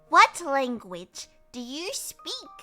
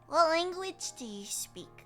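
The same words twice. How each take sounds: First: It is said in a polite customer-service voice. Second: It is said in her ordinary everyday voice.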